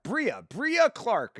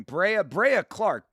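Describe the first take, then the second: First: "Brea" said as BREE-uh; corrected name pronunciation. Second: "Brea" said as BRAY-uh; mistaken name pronunciation. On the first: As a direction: say "Brea" with a long EE, slowly, BREE-uh. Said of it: "is her name". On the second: Working out how name is said. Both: Shown as a demonstration.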